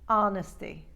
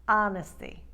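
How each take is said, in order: No difference in how they are said.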